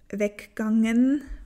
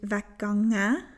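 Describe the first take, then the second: First: The word ends with an 'en' sound. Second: The word ends with an open 'ä' sound. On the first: This form still has the full ending. "was wir da noch dieses en haben" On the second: This is the Swiss German form. "ausgesprochen als offenes ä"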